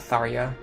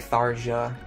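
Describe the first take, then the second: First: The name ends with a 'ya' sound. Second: The name ends with a 'ja' sound. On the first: The speaker calls it right. "it's definitely a ya sound at the end" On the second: The speaker calls it wrong. "people say Tharja"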